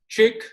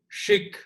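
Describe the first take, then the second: First: The name starts with a plain English ch sound. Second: The name starts with a soft French-style sh sound. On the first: The speaker calls it right. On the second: The speaker calls it wrong.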